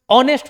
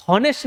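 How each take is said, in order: First: ऑनेस्ट starting straight on the vowel; silent H. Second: हॉनेस्ट with the H sounded; wrong pronunciation. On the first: Teacher giving the correct pronunciation, ऑनेस्ट with silent H. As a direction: drop the H in ऑनेस्ट completely. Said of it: "एच silent होता है". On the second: Teacher showing how not to read it, हॉनेस्ट with an audible H. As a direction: pronounce the initial H in हॉनेस्ट. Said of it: "हॉनेस्ट नहीं पढ़ते". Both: Shown as a demonstration.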